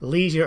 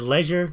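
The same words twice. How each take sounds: First: It is said with an American pronunciation. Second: It is said with a British pronunciation.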